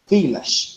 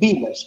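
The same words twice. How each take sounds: First: The word begins with a v sound. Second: The word begins with a b sound. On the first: The speaker calls it right. "It's village. ... With a V" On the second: The speaker calls it wrong. "you cannot say village. ... not with a B"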